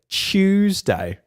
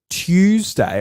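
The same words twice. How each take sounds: First: It begins with a CH sound. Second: It begins with a clear T sound. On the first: "I say like ch- like a it's like a C H" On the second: "instead of a instead of Tuesday"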